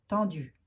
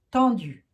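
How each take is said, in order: First: Said in the usual way. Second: "Tendues" loud, its vowel pushed toward "tondues" in a Lorraine accent. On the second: Shown as a demonstration. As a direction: stress "Tendues" hard, Lorraine style, nearly "tondues". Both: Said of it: "avec mon accent lorrain".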